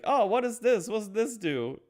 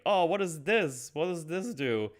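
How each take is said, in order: First: Very high, louder curious wonder; childlike wonder. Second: Put-on childlike wonder. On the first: Retold or imitated. Pinocchio exploring the workshop, high wondering voice. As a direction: ask it like an amazed child. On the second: Curious Pinocchio.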